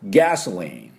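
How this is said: It is said with English sounds and stress. The speaker calls it right. "正確にガソリンの音を言いますと"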